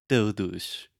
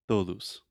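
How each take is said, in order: First: Todos with the tongue blade T; Portuguese todos. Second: Todos with a Portuguese blade T. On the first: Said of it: "So you're not saying". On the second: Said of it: "So if you say". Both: Shown as a demonstration.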